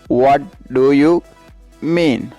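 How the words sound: Each word is said separately.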